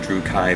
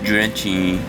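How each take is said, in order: First: The middle consonant is a 'k' sound. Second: The middle consonant is a 'ch' sound. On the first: This is how the speaker and people they know say it. "I actually I pronounce it Drew Kai" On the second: This is how a store employee insists it should be said. "you know it's pronounced Drutchy"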